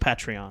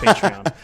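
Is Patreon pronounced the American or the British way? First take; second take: British; American. First: It is pronounced the British way. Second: It is pronounced the American way. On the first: "In in the U K, it's Patreon" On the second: "In the U S, it's Patreon"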